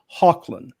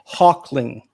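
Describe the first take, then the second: First: The name ends with a 'land' sound. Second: The name ends with an 'ing' sound. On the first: The speaker calls it right. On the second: The speaker calls it wrong.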